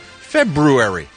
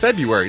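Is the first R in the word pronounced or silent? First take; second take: pronounced; silent. First: The first R in the word is pronounced. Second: The first R in the word is silent. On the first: The speaker calls it right. "No, February. That's what I'm going to call it" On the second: The speaker calls it wrong. "Everybody says, oh, it's February"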